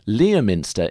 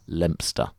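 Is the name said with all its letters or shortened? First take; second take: all letters; shortened. First: Every spelt syllable of the name is pronounced. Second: Most letters are dropped, giving a short name. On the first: The speaker calls it wrong. "I'm going to do it wrong again" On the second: The speaker calls it right. "you can ignore most of the letters"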